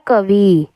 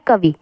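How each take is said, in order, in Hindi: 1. आख़िरी स्वर लंबा है। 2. आख़िरी स्वर छोटा है। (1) "इधर वाली बड़ी ई डाल देते हैं" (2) "जबकि होता क्या है"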